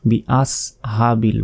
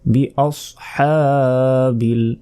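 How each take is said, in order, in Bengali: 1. s ধ্বনিটি সাধারণ ও হালকা। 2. s ধ্বনিটি ভারী ও জোরালো। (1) "এখানে সিন নেই" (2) "হামজা সদ জবর আস"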